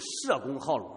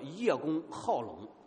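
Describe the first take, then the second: First: The first syllable is pronounced 'she'. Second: The first syllable is pronounced 'ye'. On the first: "也可以读成社公好龙" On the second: "那中国有一个成语叫做叶公好龙"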